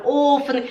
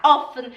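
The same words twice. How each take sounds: First: "offen" with a long, closed o; students' mistake. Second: "offen" with a short o, rising; intended short vowel. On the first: Teacher imitates her students' mistake, long-o "offen". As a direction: stretch "offen" into "oofen". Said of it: "elas falam". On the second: Teacher gives the intended word, short-o "offen". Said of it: "Em vez de falar". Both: Shown as a demonstration.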